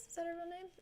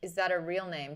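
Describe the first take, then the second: First: High, very soft voice; small quiet echo. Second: Said in the usual way. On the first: Real, not acted. Streamer wondering about co-host's name, small high echo. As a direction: repeat the question faintly, high. Repeats question to herself.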